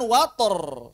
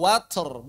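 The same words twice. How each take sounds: First: "water" with a full vowel after t, "wator"; slow, loud "water" with an added voiced syllable; wrong voiced release. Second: "water" as "watr", only air after t; slow, loud "watr" with a breath release. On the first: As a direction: stretch to "wat-orr" with a long r. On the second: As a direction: aspirate the t of "water" with no vowel before the r. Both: Shown as a demonstration. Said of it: "bukan water".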